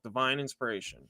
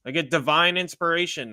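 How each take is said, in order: First: Divine inspiration repeated much softer and lower, reverent. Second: Said in the usual way. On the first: Shown as a demonstration. Repeating the term to his viewers, softer and lower. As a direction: let Divine inspiration sink in quietly. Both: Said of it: "That's what it's called".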